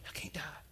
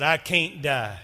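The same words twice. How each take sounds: First: Soft hushed whisper; timid whisper, almost inaudible. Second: Loud and firm, full of conviction; strong defiant declaration; bold declaration. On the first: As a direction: barely breathe it out in fear. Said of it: "and I whispered it". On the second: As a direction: proclaim it boldly. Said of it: "and he boldly said". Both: Retold or imitated.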